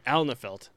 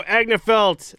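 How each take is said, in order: First: Alnefeld said with an L before the n; corrected name. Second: Agnefeld said with a G-N in place of L-N; loud, drawn-out Agnefeld with "AG-nuh" at the front; mispronounced name. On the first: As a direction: say Alnefeld starting "AL-nuh", no g. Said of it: "oh, sorry". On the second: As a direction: say Agnefeld with a hard g before the n. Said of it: "Ag-, oh, sorry". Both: Real, not acted.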